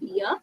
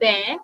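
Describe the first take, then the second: First: The vowel sounds like the one in 'ear'. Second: The vowel sounds like the one in 'air'. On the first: The speaker calls it wrong. "and not beer" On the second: The speaker calls it right. "Actually bear"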